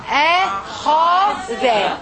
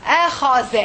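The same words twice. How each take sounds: First: "أخذ" very slowly in three drawn-out syllables. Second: Said in the usual way. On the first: Shown as a demonstration. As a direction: stretch "أخذ" into a, kha, dha. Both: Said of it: "pronounce with me this one".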